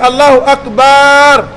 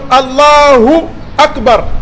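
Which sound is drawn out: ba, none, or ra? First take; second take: ba; none. First: The ba sound is drawn out long. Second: No sound is drawn out at all. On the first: The speaker calls it wrong. "Si tu as tiré les bas" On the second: The speaker calls it right. "Donc Allahu Akbar"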